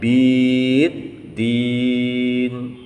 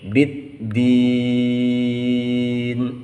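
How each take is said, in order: First: The first vowel is drawn out long. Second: The first vowel is kept short. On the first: The speaker calls it wrong. "tidak dibaca panjang" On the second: The speaker calls it right. "tetapi ini pendek"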